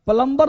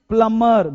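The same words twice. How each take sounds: First: The B sound is pronounced in the word. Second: The B sound is left out of the word. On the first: The speaker calls it wrong. "प्लम्बर नहीं" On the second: The speaker calls it right. "बी होता है silent"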